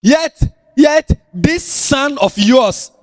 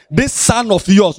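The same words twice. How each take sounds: First: Slow, weighted "this son of yours"; insulting tone. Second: Slow "This son of yours", stretched out; slower repeat. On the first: Elder brother spitting out his complaint to the father, slow and scornful. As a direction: lean on "this son of yours" with contempt. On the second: Preacher repeating the elder brother's words to the congregation, slowly. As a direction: draw out "This son of yours" again. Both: Shown as a demonstration. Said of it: "that was an insult".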